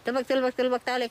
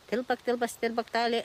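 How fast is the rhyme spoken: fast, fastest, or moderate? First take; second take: fastest; fast. First: The rhyme is spoken at the fastest pace. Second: The rhyme is spoken at a faster pace. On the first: "все быстрее и быстрее" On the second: "это должно убыстряться, все быстрее и быстрее"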